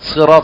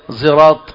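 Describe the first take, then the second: First: The word begins with an emphatic s sound. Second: The word begins with a z-like sound.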